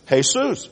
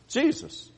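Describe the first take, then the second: First: The name is pronounced the Spanish way. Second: The name is pronounced the English way. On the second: "if you are just a good old country boy"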